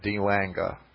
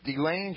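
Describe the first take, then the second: First: The name is said with German-style pronunciation. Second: The name is said with English-style pronunciation. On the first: The speaker calls it right. "that's more like it in German" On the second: The speaker calls it wrong. "I'm probably pronouncing that wrong"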